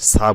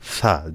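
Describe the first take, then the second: First: The consonant is a plain hissing s sound. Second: The consonant is a th sound with the tongue tip. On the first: The speaker calls it wrong. "সা বলবেন না" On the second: The speaker calls it right. "সা জিব্বার আগা দিয়ে উচ্চারণ হবে"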